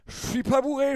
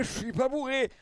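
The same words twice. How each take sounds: First: Put-on high, insistent drunk denial; trying to sound sober. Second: High denial, falling at the end; trying to sound sober. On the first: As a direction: protest you're sober, too eagerly. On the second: Retold or imitated. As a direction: repeat the protest, settling down. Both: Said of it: "quand t'es là en mode".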